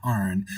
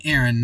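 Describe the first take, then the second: First: Aaron said as AR-on; Aaron pronounced AR-on, not AIR-un; corrected name. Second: Aaron said as AIR-un; Aaron pronounced the common way, AIR-un; mispronounced name. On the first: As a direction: say Aaron with an open AR first syllable. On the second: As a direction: say Aaron with an AIR first syllable. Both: Shown as a demonstration. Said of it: "I keep saying Aaron, not Aaron".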